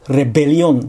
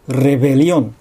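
First: The b is a full stop closure. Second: The b is a soft fricative. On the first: The speaker calls it wrong. "rebeliónではなく" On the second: The speaker calls it right. "ここは摩擦音ですね"

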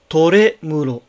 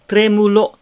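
First: A vowel is inserted between t and r. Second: The t and r are joined directly. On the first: The speaker calls it wrong. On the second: The speaker calls it right.

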